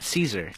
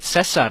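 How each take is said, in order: First: The name is said with an English pronunciation. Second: The name is said with a Spanish pronunciation. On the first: The speaker calls it wrong. "not Caesar" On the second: The speaker calls it right. "technically, you call it Cesar salad"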